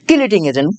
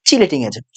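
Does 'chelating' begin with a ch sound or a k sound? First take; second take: k sound; ch sound. First: The word begins with a k sound. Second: The word begins with a ch sound. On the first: It follows the spelling in the local textbook. "বাংলায় লেখা আছে কিলেটিং, তাই কিলেটিং বলতেছি" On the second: It is the usual standard pronunciation. "চটা main উচ্চারণ, হ্যাঁ চিলেটিং বলি"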